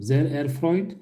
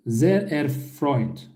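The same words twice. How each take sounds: First: Said in the usual way. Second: Sehr erfreut drawn out slowly; slow model phrase. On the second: Shown as a demonstration. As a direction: say Sehr erfreut slowly so learners can repeat. (yavaş, uzatılmış örnek) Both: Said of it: "karşılık bunu verebilirsiniz".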